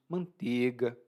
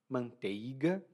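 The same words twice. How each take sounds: First: The word is pronounced in a relaxed, reduced way. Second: Every sound is pronounced in full, carefully. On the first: "normalmente nós pronunciamos" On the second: "aqui eu estou forçando a pronúncia"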